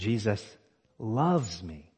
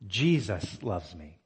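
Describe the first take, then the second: First: The word loves is stressed. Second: The word Jesus is stressed. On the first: It is love, not mere tolerance. "the fact that he loves me is stunning" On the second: It is amazing who it is that loves. "it is amazing that Jesus loves me"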